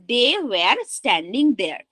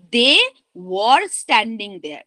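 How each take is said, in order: First: Slow sentence, "were" said like "wear"; mispronounced "were". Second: Slow sentence, "were" said like "wor"; proper "were". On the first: Teacher giving the first, poorer version, "were" sounded as "wear". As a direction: rhyme "were" with "there", taking it slowly. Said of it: "কারণ সেকেন্ডটাতে আমি where". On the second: Teacher giving the better second version, "were" rounded like "wor". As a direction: round the vowel of "were", close to "war", slowly. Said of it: "properly উচ্চারণ করছি". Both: Shown as a demonstration.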